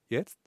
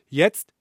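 First: It is said quietly, like an echo. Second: It is said at normal loudness.

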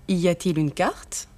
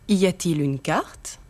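Both takes have the same delivery.

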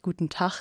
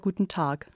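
First: It is pronounced with a non-southern German accent. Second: It is pronounced with a southern German accent. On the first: "dass Sie vielleicht guten Tag sagen würden zu Hause" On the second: "und hier eher guten Tag"

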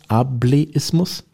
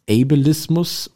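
First: The word is pronounced the German way. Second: The word is pronounced the English way.

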